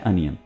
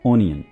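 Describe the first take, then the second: First: The word begins with an 'uh' sound. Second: The word begins with an 'oh' sound. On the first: The speaker calls it right. "English है अनियन" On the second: The speaker calls it wrong. "ना कि ओनियन"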